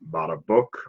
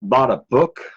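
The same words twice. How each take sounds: First: It is said in a very low voice. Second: It is said in a normal voice.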